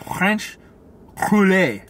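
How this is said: It is said with a French accent.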